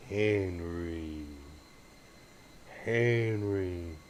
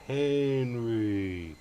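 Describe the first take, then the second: First: Whispering to get the dog's attention; whispered call. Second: Said in the usual way. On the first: Real, not acted. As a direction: whisper the dog's name, unvoiced. Calling the dog softly.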